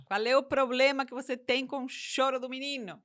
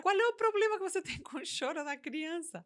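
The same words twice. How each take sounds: First: Said in the usual way. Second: Higher, half-laughing question; incredulous question breaking into a laugh; laughing disbelief. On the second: Real, not acted. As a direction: laugh at how absurd it is. Same question asked twice.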